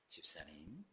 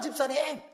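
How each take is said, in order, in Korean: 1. 낮고 조용하게, 경건하고 신실한 목소리로 말합니다. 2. 평소 생활에서 쓰는 크고 편안한 목소리로 말합니다. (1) "갑자기 경건해지고 갑자기 거룩해져서" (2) "본 목소리가 나옵니다"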